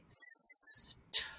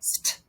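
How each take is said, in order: First: The two sounds are said slowly and separately. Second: The two sounds are blended quickly together. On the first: The speaker calls it wrong. "we don't say" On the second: The speaker calls it right. "we say them really fast"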